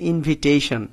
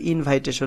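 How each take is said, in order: First: The second syllable has a short 'i' vowel. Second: The second syllable has an 'eye' vowel. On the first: The speaker calls it right. "এটার উচ্চারণ হচ্ছে ইনভিটেশন" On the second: The speaker calls it wrong. "এটা কিন্তু ইনভাইটেশন না"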